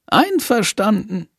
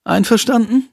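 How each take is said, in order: First: Einverstanden. said with a falling, closing tune; settled agreement. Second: Einverstanden? asked with a rising question tune; boy asking his friend to agree, rising tune; questioning rise. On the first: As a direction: seal the deal. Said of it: "flüstert er". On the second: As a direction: offer the deal and wait for a yes. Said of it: "Jendrik offers a deal". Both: Acted.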